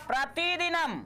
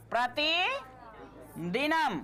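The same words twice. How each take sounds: First: Said in the usual way. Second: प्रतिदिनम drawn out slowly in two parts, long pause after प्रति; slow teacher's dictation of प्रतिदिनम, broken mid-word; slow split dictation. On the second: Shown as a demonstration. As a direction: dictate प्रतिदिनम piece by piece, प्रति rising, then दिनम. Teacher repeats word slowly for writing.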